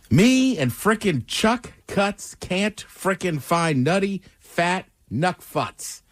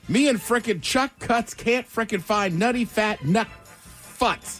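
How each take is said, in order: First: It is said at a normal speed. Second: It is said fast.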